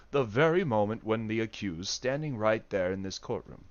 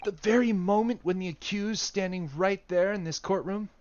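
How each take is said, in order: First: Lower, plainer take in his own lawyer voice. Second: Raised posh British courtroom voice; British accent in a higher voice. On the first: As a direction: drop the British accent and speak as himself. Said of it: "That's Hasanoga, not Ryunosuke". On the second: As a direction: play it in a British accent, pitched up. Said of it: "Oh, oh, it's still Hasanoga". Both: Acted.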